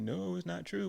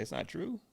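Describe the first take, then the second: First: High-pitched answer, drawing out "No"; insistent denial. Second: TRUE lifted high in a rising question. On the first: Guy answers Sabata's question, insistent high denial on "No". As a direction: answer high, leaning on "No" before "true". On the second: Sabata asks the guy about the rumor, "true" rising in question. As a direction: lift "true" up high, asking. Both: Retold or imitated.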